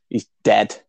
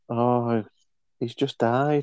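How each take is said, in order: First: It sounds flat and without emotion. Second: It sounds sad and empathetic.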